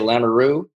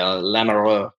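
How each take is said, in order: First: The r is said plainly, without a throaty sound. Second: The r is said deep in the throat. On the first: This is how it is said in North Dakota. "North Dakota, they say Lamoureux" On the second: This is how it is said in Austria. "they really get the throat into it in Austria"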